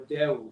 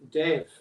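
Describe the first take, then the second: First: The consonant is pronounced as a W sound. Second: The consonant is pronounced as a V sound. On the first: "or as a W" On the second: "pronounce it a V"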